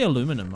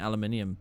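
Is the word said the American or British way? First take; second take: American; British. First: The word is said the American way. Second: The word is said the British way. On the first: The speaker calls it wrong. "I always say aluminum" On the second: The speaker calls it right. "I should really be saying aluminium, being British"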